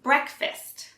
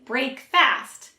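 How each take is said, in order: First: It is said quickly as one word, like fist. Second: It is said as two separate full words. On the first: The speaker calls it right. "But actually, we say breakfast" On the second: The speaker calls it wrong. "you may say break fast, since those are correct for those two separate words"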